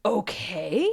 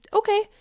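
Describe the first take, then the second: First: Drawn-out questioning okay; voice of the emotion. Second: Very high, short, louder okay; calm acceptance acted out. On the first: Acted. Emotion replying to your okay, doubtful question. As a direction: let okay climb slowly, unconvinced. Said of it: "And then the emotion says". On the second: You simply answering the emotion, chirpy acceptance. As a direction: chirp a tiny unbothered okay. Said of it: "And you just say".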